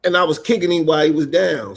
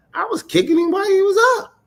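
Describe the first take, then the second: First: Said in the usual way. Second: Fast, high-pitched squawk of protest; indignant comeback. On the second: Retold or imitated. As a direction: protest it way up high, words tumbling out.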